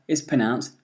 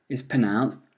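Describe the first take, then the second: The two takes are said the same way.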